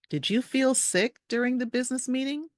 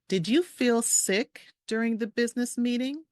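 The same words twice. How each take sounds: First: The sentence is spoken at a faster pace. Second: The sentence is spoken at a slower pace.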